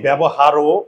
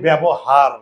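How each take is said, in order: First: The word ends with an added o vowel. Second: The word ends on a bare r consonant. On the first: The speaker calls it wrong. "আমরা কি বলি ব্যবহারও" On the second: The speaker calls it right. "এখানে বলি ব্যবহার, এখানে কিন্তু অয়ের উচ্চারণটা হয় নাই"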